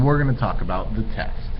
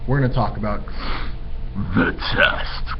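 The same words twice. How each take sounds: First: It is said in a casual, neutral tone. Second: It is said in a dramatic, ominous tone. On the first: The test is nothing to worry about. The speaker calls it wrong. "That's not how we're going to say it" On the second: The test is something to worry about. The speaker calls it right. "the way we're supposed to feel about it"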